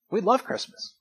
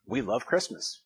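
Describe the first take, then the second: First: Love lifted high with a rising tune; We love Christmas with love sung up high; stress on love. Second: Said in the usual way. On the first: Shown as a demonstration. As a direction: lean up into love, warmly emphatic.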